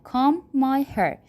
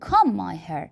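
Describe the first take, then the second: First: "Comb" drawn out slowly with silent b; "Comb" stretched, ending on m. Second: "Comb" said komb, b silent; "Comb" with a long silent-b m; comb said right. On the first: ("Comb" آهسته و بدون b) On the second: (کلمهٔ "Comb" بدون b) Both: Shown as a demonstration. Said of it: "Comb بهشو نخونیدا".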